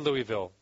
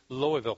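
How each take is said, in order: First: The city name is said the outsider way. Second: The city name is said the local way. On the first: The speaker calls it wrong. "They don't say Louisville" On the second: The speaker calls it right. "is how they say it"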